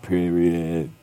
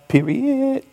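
First: It is said at a lower pitch. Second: It is said at a high pitch.

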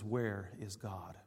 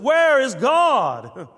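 First: It is said at a normal, moderate volume. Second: It is said very loudly with great authority. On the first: "with very strong gaze" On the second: "with very much volume and great authority"

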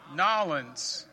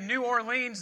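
First: The name is said the local way. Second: The name is said the outsider way. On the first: The speaker is from the region. The speaker calls it right. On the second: The speaker is from outside the region. The speaker calls it wrong. "they'll say you're a Yankee"

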